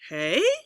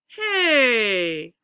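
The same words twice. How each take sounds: First: The pitch rises on the word. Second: The pitch falls on the word. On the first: "We'll do a rising" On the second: "and we'll go down"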